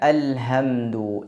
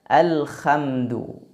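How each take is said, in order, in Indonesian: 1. Bunyi h-nya biasa, seperti h pada umumnya. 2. Bunyi h-nya serak dan bergesek, seperti kh. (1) "tapi dibaca alhamdu. Ini maknanya jauh berbeda" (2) "ada seraknya"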